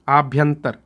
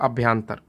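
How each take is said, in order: First: The word begins with a long 'aa' vowel. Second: The word begins with a short 'a' vowel. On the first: The speaker calls it right. "उच्चारण भी देख लेंगे, आभ्यंतर होता है" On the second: The speaker calls it wrong. "पहली बार में मैं गच्चा खाया हूं"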